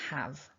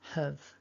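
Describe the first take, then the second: First: The vowel is a full open 'a' sound. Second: The vowel is reduced to a weak schwa. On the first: "we'll start with the strong form. ... that ah, ah vowel, like in the word cat" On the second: "when we make have weak by switching the a for the uh"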